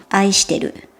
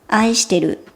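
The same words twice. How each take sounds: Both takes have the same delivery.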